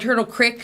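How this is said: Creek has a short i vowel, like sick.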